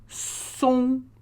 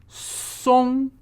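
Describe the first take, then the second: No difference in how they are said.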